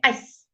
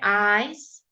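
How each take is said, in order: First: The vowel is clipped short. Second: The vowel is held long. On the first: The speaker calls it right. "when you get to ice, it's short" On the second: The speaker calls it wrong. "You wouldn't say ice"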